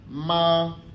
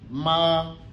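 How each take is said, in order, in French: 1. La hauteur reste haute et stable. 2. La hauteur reste haute et stable.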